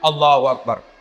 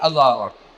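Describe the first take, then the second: First: It is said with far too much energy. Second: It is said sleepily, with no energy.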